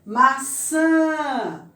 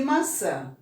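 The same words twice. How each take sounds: First: Maçã with a high, loud, long ÇÃ; stress on last syllable. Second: Said in the usual way. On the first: Shown as a demonstration. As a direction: stretch and punch the ÇÃ in Maçã. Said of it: "No san". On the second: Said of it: "nós temos primeiro banana".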